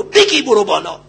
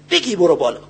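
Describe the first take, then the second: First: بگی برو بالا pushed out firmly with weight on بگی; first, stronger call to climb; emphatic urging. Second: Said in the usual way. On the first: Real, not acted. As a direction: urge the youth to climb, forcefully. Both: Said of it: "repeated exhortation".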